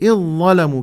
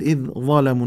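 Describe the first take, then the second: First: The dh sound merges fully into the emphatic consonant. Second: The dh sound is pronounced separately before the emphatic consonant. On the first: The speaker calls it right. "نقول إذ ظلموا، كأنما الذال تحذف" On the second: The speaker calls it wrong. "لا نقول إذ ظلموا"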